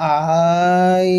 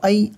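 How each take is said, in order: First: The vowel is drawn out and lengthened. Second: The vowel is short and quick. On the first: The speaker calls it wrong. "কোনো টান হয় না মানে হামজা ইয়া জবর আই বা আই এই ধরনের উচ্চারণ হয় না" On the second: The speaker calls it right. "বরং একদম সিম্পল উচ্চারণ হবে"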